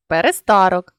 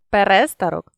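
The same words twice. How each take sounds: First: Перестарок with СТА stressed; stress on third syllable. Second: Перестарок with РЕ stressed; stress on second syllable. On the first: Teacher shows a stress variant, перестарок stressed on СТА. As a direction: lean on СТА inside перестарок. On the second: Teacher shows a stress variant, перестарок stressed on РЕ. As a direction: lean on РЕ inside перестарок. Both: Shown as a demonstration. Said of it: "наголосивши той чи інший склад".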